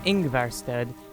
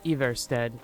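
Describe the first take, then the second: First: The name begins with an added 'ng' sound. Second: The name begins with a plain 'I' sound. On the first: The speaker calls it wrong. "I think I was pronouncing it Ingvarstead" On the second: The speaker calls it right. "but it's Ivarstead"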